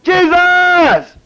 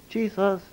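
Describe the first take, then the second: First: The name is shouted loudly. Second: The name is said quietly and casually.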